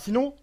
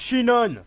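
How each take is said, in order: First: The name begins with a plain s sound. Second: The name begins with an sh sound. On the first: The speaker calls it wrong. "son prénom c'est pas Sinon" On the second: The speaker calls it right. "c'est Shinon"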